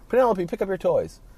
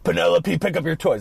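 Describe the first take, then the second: First: It is said softly and passively. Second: It is yelled loudly and harshly.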